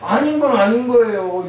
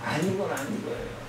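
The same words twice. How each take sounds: First: 아닌 건 아닌 거예요 said loud and higher, hitting 건; firm insistence. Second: 아닌 건 아닌 거예요 said much softer, almost to himself; hushed repeat. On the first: Preacher insisting to the congregation that wrong is wrong, firm and loud. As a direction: declare 아닌 건 아닌 거예요 with full force. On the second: Preacher repeating his point to the congregation after a pause, quiet and grave. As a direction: drop to a near murmur on 아닌 건 아닌 거예요. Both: Acted.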